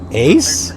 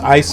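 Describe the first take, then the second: First: The word sounds like 'ace'. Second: The word sounds like neither 'ace' nor 'east'. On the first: The speaker calls it wrong. "before I'm like, uh, Ace?" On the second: The speaker calls it right. "it's pronounced Aes Sedai"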